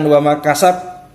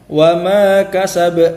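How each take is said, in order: First: The final b stops with no echoing bounce. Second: The final b ends with a light echoing bounce. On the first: The speaker calls it wrong. "saja tidak ada qalqalahnya" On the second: The speaker calls it right. "kasa langsung baknya dipantulkan"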